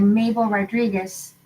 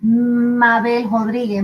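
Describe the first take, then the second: First: Said in the usual way. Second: "Mabel Rodriguez" said the Spanish way, slowly; Spanish vowels in "Mabel Rodriguez", rolled and slow; Spanish pronunciation. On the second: Shown as a demonstration. Telling a friend her Puerto Rican name, Spanish pronunciation. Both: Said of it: "When we've moved to Puerto Rico".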